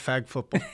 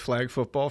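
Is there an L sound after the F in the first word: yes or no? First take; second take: no; yes. First: The first word is said without an L sound. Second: The first word is said with an L sound. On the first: The speaker calls it wrong. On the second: The speaker calls it right.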